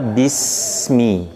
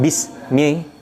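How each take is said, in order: First: The s hisses and flows continuously. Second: The s is cut off abruptly. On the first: The speaker calls it right. "ya mengalir, sifat sofirnya harus muncul" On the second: The speaker calls it wrong. "kita tidak mematikan hurufnya, tidak bismi"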